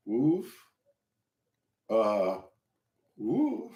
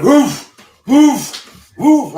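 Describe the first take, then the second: First: Soft, feeble effort grunts; straining to lift. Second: Loud, high explosive "woof" noises; workout grunts. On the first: Beginner trying to lift cinder-block bar, weakly straining. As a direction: mime failing to budge a heavy bar, with small huffs. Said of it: "As soon as I tried to bend down and grab that". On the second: Storyteller imitating trainer's noises during a lift, loud grunts. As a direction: imitate a lifter forcing out breath on each rep. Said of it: "He was making these noises like". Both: Retold or imitated.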